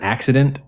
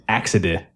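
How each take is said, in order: First: The word ends with its full final sounds. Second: The word ends without its final n and t.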